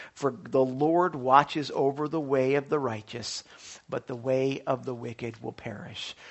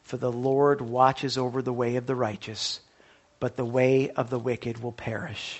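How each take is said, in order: Both takes have the same delivery.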